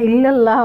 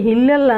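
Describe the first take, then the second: First: The word begins directly with a vowel. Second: The word begins with an h sound. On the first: The speaker calls it right. "ইল্লাল্লাহ হবে" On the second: The speaker calls it wrong. "হিল্লাল্লাহ না"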